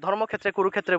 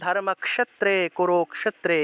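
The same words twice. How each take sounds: First: The clusters sound like a doubled kh. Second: The clusters sound like k followed by sh. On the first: This is the everyday Bengali way of saying it. "বলি" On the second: This is the Sanskrit way of saying it. "তারা উচ্চারণ করে"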